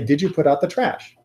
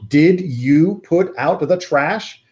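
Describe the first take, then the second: First: Did and you run together into one sound. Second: Did and you are spoken clearly and separately. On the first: The speaker is asking a casual question. "if you were going to ask this colloquially" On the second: The speaker is scolding someone. "We enunciate like that when we are bawling someone out"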